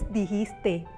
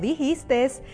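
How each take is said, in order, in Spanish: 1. La palabra termina en sonido de vocal. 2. La palabra termina con un sonido s extra. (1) "El término correcto es dijiste" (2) "no dijiste. Se trata de un error fonético que añade algún sonido al final de un vocablo"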